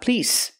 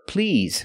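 First: The word ends in a hissing 's' sound. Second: The word ends in a buzzing 'z' sound. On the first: The speaker calls it wrong. "not please" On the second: The speaker calls it right. "Please use the vibration sound, z, with the word please"

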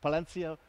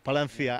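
First: It has a plainer, foreign-sounding pronunciation. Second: It has a thick-tongued local Spanish pronunciation. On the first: An outsider is attempting the local way. "I cannot do it like that, but I try" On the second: This is how local people say it. "You guys say it with a big tongue sometimes, like Palencia"

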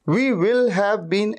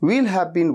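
First: Both words 'we will' are said in full. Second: 'We will' is contracted into one syllable. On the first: The speaker calls it wrong. "ऐसे नहीं कहते" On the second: The speaker calls it right. "वी विल को contract कर देते हैं"

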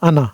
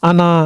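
First: The final vowel is kept short. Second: The final vowel is drawn out long. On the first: The speaker calls it right. "হবে আনা" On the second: The speaker calls it wrong. "কোনো মাদ হবে না, আনা এরকম হবে না"

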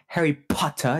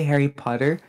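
First: The P in Potter is strongly emphasized. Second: The P in Potter is said softly. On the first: The speaker calls it right. "You have to emphasize the P" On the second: The speaker calls it wrong. "you cannot say Harry Potter"

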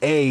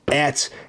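First: The word ends without a t sound. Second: The word ends with a clear t sound. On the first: The speaker calls it wrong. "in French or in Canadian A" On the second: The speaker calls it right. "But in Latin, I realize it's et"

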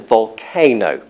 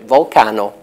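First: Volcano is said with the usual native English pronunciation. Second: Volcano is said with a foreign-influenced, spelling-based pronunciation. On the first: This is how native speakers say it. The speaker calls it right. "all the other half billion or whatever native English speakers in the world, pronounced volcano" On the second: This is how a non-native expert said it. The speaker calls it wrong. "he pronounced it volcano"

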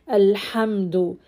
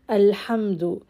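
Both takes have the same delivery.

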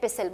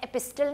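First: The t sound is left out in the middle. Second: The t sound is pronounced in the middle. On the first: The speaker calls it right. "I call it एपिसल। वाई? Because टी is silent." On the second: The speaker calls it wrong. "मैं एपिस्टल नहीं कहती इसको"

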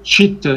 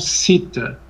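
First: The word begins with a palatal ch sound. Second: The word begins with a plain s sound. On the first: The speaker calls it right. "Porque o C no sânscrito, quando encontra uma vogal, ele tem esse som de cha, um som palatal" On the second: The speaker calls it wrong. "e não sita"

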